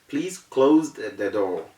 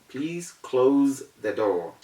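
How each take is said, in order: No difference in how they are said.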